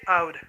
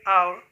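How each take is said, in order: First: The final T is pronounced as a clear T. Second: The final T sounds like a soft R. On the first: This is the British way of saying it. "while the British say out" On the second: This is the American way of saying it. "The Americans say our"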